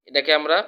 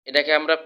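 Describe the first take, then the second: Both takes have the same delivery.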